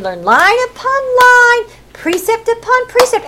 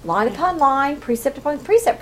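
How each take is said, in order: First: High, slowed singsong drill; teaching little children. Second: Said in the usual way. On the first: Shown as a demonstration. Teacher drilling children in the Torah, high singsong. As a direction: chant it for a class of small children. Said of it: "when they were teaching little children". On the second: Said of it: "I always thought, "Well, that's how".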